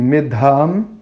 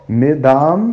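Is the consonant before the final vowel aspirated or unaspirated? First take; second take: aspirated; unaspirated. First: The d is followed by a breath of air. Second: The d is plain, without a breath of air. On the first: The word means intelligence. The speaker calls it right. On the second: The word means fat or grease. The speaker calls it wrong. "sem aspirar a letra"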